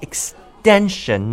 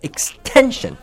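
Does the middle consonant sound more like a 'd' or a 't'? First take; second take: d; t. First: The middle consonant sounds like a soft 'd'. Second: The middle consonant sounds like a clear 't'. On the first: The speaker calls it right. "It's more like extension" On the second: The speaker calls it wrong. "not extension"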